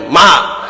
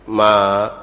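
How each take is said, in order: First: It is said louder and stronger. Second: It is said softly and gently.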